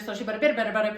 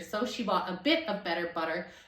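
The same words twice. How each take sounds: First: It is said very fast, like an auctioneer. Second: It is said slowly and clearly.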